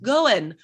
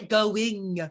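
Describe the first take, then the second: First: The final g sound is dropped. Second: The final g sound is clearly pronounced. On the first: The speaker calls it right. "dropping the G at the end" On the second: The speaker calls it wrong. "we never say going"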